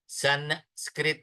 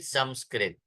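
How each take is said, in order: First: The first syllable ends in an n sound. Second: The first syllable ends in an m sound. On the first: The speaker calls it wrong. "Not नकार" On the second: The speaker calls it right. "It is मकार"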